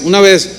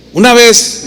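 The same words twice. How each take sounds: First: Said in the usual way. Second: "Una vez" said louder and higher to grab attention; emphatic opener. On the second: Shown as a demonstration. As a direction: land "Una vez" firmly to start the story.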